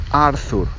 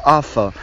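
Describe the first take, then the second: First: "Arthur" said the Spanish way with a tapped r, ending "Arthu"; "Arthur" with a rolled-tap r and a clear final u; Spanish way of saying it. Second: "Arthur" said the English way, "Atho", with no r sound; "Arthur" as English people say it, "Atho". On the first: Teacher shows students how Spaniards say "Arthur". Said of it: "todos los españoles decimos Arthur". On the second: Teacher shows students how the English say "Arthur". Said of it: "Los ingleses dicen Arthur". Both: Shown as a demonstration.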